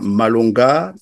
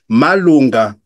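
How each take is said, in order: First: The name is said with French intonation. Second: The name is said with native-language intonation. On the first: The children did not recognize it as their name. "là, je prononce en français" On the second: The child recognized the name and answered. "il utilise l'intonation de la langue maternelle"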